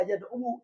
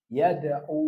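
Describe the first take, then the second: First: Yada'u with an extra final syllable, yad-'u-wu; yada'u ending in a voweled -wu; unused full reading. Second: Yada'u ending on one long held u; yada'u with the last u simply lengthened; hidden final vowel. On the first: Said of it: "Makanya tidak dibaca". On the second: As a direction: say yada'u as yad-'uu, no -wu syllable. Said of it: "Dibacanya yada'u". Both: Shown as a demonstration.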